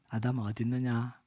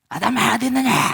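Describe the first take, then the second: First: It is said in a gentle, caring tone. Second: It is said in an angry, harsh tone.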